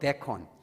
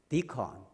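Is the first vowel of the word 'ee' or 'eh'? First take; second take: eh; ee. First: The first vowel sounds like 'eh'. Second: The first vowel sounds like 'ee'. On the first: The speaker calls it wrong. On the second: The speaker calls it right.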